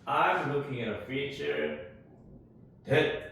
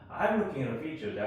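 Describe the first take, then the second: First: The word 'that' is said fully and clearly. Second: The word 'that' is said lightly, barely heard. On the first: The speaker calls it wrong. "이렇게 하지 말고" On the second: The speaker calls it right. "that을 살짝 어, 있는 듯 없는 듯"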